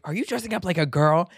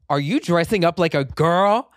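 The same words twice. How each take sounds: First: Raised, faster accusing question; mother's outraged demand, quicker; angry mother. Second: Louder, raised accusing question; mock the mother's outraged demand; angry mother. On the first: Retold or imitated. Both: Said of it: "angry Egyptian woman screaming at me".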